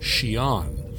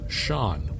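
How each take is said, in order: First: The word is said with two syllables. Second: The word is said with one syllable. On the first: The speech is formal. "if you're speaking formally" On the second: The speech is informal. "if speaking informally, they would instead pronounce the same word as Sean, which they eliminated an entire syllable"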